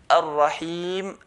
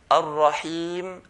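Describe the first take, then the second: The two takes are said the same way.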